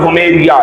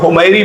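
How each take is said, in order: First: The name ends with an extra 'ya' syllable. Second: The name ends on a long 'ee' sound. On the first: This is the original form of the name. "Actual में उसका pronounce है" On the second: This is the commonly used form of the name. "आमतौर पे हुमैरी बोलते हैं"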